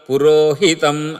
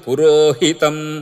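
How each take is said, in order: First: The accented syllable 'hi' is kept short. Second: The same.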